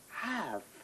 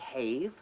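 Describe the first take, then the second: First: The vowel is short, as in 'cat'. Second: The vowel is long, rhyming with 'gave'. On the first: The speaker calls it right. "you say" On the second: The speaker calls it wrong. "You don't say"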